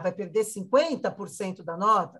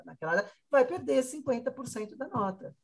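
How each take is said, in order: First: "vai perder cinquenta por cento da nota?" asked as a question, stress on "cinquenta"; doubtful question. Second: "vai perder cinquenta por cento da nota" stated flatly, falling at the end, stress on "vai"; firm statement. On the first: School coordinator voicing a parent's doubt, asking it as a question. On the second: School coordinator answering the parent's doubt with a firm statement. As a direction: settle it as a firm fact. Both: Shown as a demonstration.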